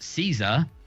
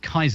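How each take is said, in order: First: The word begins with a soft S sound. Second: The word begins with a hard K sound. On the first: This is the later, familiar pronunciation. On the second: This is the original Roman pronunciation.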